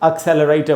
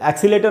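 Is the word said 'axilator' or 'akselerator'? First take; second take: akselerator; axilator. First: It sounds like 'ak-sel-er-ay-ter', with all syllables. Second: It sounds like 'ek-see-lay-ter', missing a syllable. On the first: The speaker calls it right. "एक्सेलरेटर बोलेंगे" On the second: The speaker calls it wrong. "एक्सीलेटर नहीं बोलेंगे"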